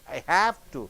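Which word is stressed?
have. The stress falls on the middle word. The speaker is obliged to. "You stress here on have"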